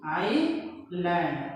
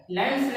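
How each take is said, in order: First: "आइलैंड" drawn out slowly, ending on D; singular, no final S. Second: "लैंड्स" with an S sounded at the end; wrong plural ending. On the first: Teacher correcting the word for one island, slow "आइलैंड" without final S. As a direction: stretch "आइलैंड" out, with no S at the end. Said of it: "लैंड्स नहीं बोलेंगे". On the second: Teacher naming the form not to say, final S on "लैंड्स". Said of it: "नहीं बोलेंगे". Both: Shown as a demonstration.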